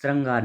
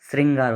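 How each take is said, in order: First: "श्रृंगार" with "ran", as shrangaar; wrong form श्रृंगार. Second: "श्रृंगार" with "rin", as shringaar; correct form श्रृंगार. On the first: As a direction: say श्रृंगार with an a after the r. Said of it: "श्रृंगार नहीं होता". ("श्रृंगार" को स्रंगार जैसा गलत बोलें) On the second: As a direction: say श्रृंगार with an i after the r. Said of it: "श्रृंगार होता है". ("श्रृंगार" में रि की साफ़ ध्वनि) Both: Shown as a demonstration.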